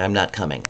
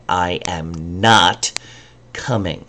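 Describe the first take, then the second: First: Said in the usual way. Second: "I am not coming" drawn out slowly, "not" separated and weighted; stress on NOT. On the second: Shown as a demonstration. Teacher showing an emphatic uncontracted negative. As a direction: pull the words apart to stress "not". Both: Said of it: "I wanna emphasize that word".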